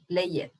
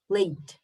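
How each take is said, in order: First: The ending is said as a separate extra syllable. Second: The word is said as a single syllable. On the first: The speaker calls it wrong. "it's not correct" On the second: The speaker calls it right. "You have to pronounce played"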